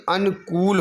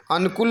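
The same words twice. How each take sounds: First: अनुकूल with a stretched kool; long oo. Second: अनुकूल with a short final kul. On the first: Teacher correcting the spelling, अनुकूल with long kool. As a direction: hold the oo of अनुकूल. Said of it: "बल्कि अनुकूल होना चाहिए". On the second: Teacher showing the error, अनुकूल with short kul. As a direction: keep kul brief in अनुकूल. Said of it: "नहीं बल्कि". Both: Shown as a demonstration.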